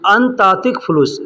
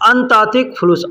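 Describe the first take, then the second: First: The first two words run together as one. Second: The same.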